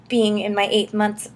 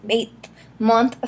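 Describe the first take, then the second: First: Said in the usual way. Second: Eighth month said slower, stumbling over the th; trying eighth month again carefully; tongue-twister retry. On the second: Shown as a demonstration. Retrying the tricky phrase for viewers, halting. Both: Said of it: "say that five times fast".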